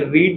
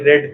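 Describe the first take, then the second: First: The vowel is long, as in 'reed'. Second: The vowel is short, as in 'red'. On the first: It is present tense. The speaker calls it wrong. "ये रीड नहीं था" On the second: It is past tense. The speaker calls it right. "ये रेड था"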